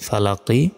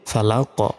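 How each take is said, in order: First: The word ends with a short 'i' vowel. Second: The word ends on a bounced 'q' consonant. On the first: The recitation continues without stopping. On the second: The reciter stops at this word.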